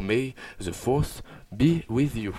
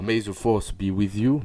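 First: Slow, drawn-out English accent with a lilting tune; hammed-up English accent, savouring each word; a grand, slow English accent; sing-song English accent. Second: May the force be with you in a lilting English accent; a light English accent with a lilting tune; sing-song English accent. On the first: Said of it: "mon accent anglais chantant". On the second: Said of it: "vous pouvez entendre mon accent anglais chantant". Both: Shown as a demonstration.

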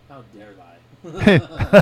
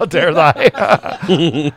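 First: Very slow, laughing "How dare I?"; slow laughing mock outrage; mock old lady. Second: Very slow, laughing, far-off "How dare I?"; slow laughing mock outrage; mock old lady. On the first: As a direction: drag it out like an indignant old woman. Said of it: "she's like". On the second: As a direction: stretch it out, shocked and laughing.

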